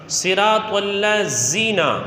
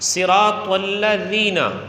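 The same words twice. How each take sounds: First: The dh sound is hissed like a z. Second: The dh sound is soft, without hissing. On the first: The speaker calls it wrong. "ये गलत है" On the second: The speaker calls it right. "ये ज़ाल है जिसमें सीटी नहीं होती"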